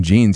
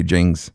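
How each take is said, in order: First: Said in the usual way. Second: "Jings", jeans ending in ng; dad's accented "jeans". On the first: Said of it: "instead of saying jeans". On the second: Retold or imitated. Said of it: "he would say Jings".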